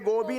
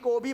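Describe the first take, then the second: First: The word begins with a voiced g sound. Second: The word begins with a voiceless k sound. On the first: The speaker calls it wrong. "गोबी नाही रे" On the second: The speaker calls it right. "कोबी म्हणतात त्याला"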